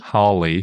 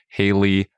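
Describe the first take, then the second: First: The first syllable rhymes with law. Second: The first syllable rhymes with day. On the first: "or Crawley" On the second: "They rhyme with Daly"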